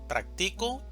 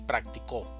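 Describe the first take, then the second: First: The stress is on the second syllable. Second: The stress is on the last syllable.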